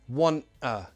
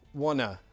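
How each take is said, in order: First: The two words are said separately and fully. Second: The two words are blended into one reduced word.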